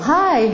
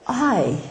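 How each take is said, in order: First: It is said loudly with a high pitch. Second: It is said quietly and hesitantly. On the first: The other person is pleased and opens up. The speaker calls it right. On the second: The conversation goes no further. The speaker calls it wrong.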